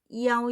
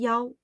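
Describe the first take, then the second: First: The first vowel is said apart from the rest. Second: The first vowel is blended into one syllable. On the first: "앞에 있는 이를 어떻게 따로 소리를 내고" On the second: "뒤에 아우 소리를 결합시킵니다"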